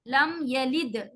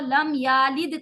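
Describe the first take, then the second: First: The vowel after the y is short. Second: The vowel after the y is long. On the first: The speaker calls it right. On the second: The speaker calls it wrong.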